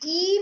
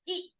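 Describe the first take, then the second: First: The vowel is drawn out long. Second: The vowel is kept short. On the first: The speaker calls it wrong. "हम इसको ई नहीं बोलेंगे" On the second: The speaker calls it right. "हम इसको बोलेंगे ई"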